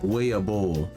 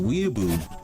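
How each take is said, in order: First: The final vowel is a long 'oh' sound. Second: The final vowel is an 'oo' sound. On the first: "If you were to pronounce this word the way it looks in Japanese, it probably sounds something like" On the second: "we wanted to be pronounced"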